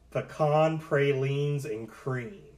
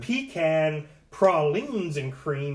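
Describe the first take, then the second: First: It is said in his normal accent. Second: It is said in a Louisiana accent.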